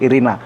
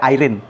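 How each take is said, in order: First: The name is said with three syllables. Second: The name is said with two syllables. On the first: This is how it is read in Ukraine. The speaker calls it right. "membacanya Irina juga" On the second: This is how it is read in English. The speaker calls it wrong. "tidak seperti di Inggris dibaca Irene, tidak begitu"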